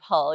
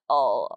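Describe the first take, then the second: First: The word starts with an h sound. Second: The h is dropped in Yorkshire style.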